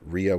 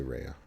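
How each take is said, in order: First: Rhea said as REE-uh, first syllable like "ree"; corrected Rhea. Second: Rhea said as RAY-uh, first syllable like "ray"; his habitual Rhea. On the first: Streamer correcting himself for chat, Rhea as REE-uh. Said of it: "I always say Rhea, but Rhea". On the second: Streamer owning up to chat about his usual Rhea, RAY-uh. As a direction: say Rhea the way he always does, RAY-uh. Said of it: "I always say Rhea". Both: Shown as a demonstration.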